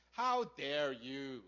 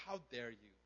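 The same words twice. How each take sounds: First: Slow, drawn-out acted indignation; angry older brother. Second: Low, quiet, restrained indignation; acted anger, held down low and soft; angry older brother. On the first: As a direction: stretch each word in offended disbelief. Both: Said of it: "He's angry at the father".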